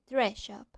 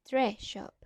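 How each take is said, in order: Both takes have the same delivery.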